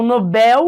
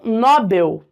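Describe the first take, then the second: First: Nobel as no-BEL, weight on the last syllable; stress on BEL. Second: Nobel as NÓ-bel, with an open first syllable; stress on NO. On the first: Teacher contrasting people's versions, Nobel stressed on final BEL. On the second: Teacher contrasting people's versions, Nobel stressed on first syllable NO. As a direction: hit NO in Nobel, let bel fall away. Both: Shown as a demonstration. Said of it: "as pessoas pronunciam de forma diferente".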